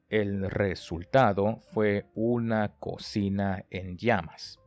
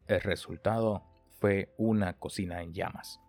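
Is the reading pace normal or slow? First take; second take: slow; normal. First: It is read at a slower pace. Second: It is read at a normal pace.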